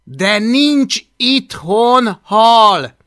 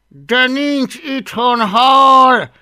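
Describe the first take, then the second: First: Loud, slow, higher and firm; kind but firm. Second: Louder, higher, drawn-out exasperation; through gritted teeth. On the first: Boy tries to sway hungry dragon, firmly. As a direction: spell it out slowly and loudly, word by word. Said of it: "Igyekezett kedves, de határozott hangon beszélni". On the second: Boy repeats himself to dragon, losing patience. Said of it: "ismételgette Hablaty összeszorított fogakkal". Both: A narrator's reading.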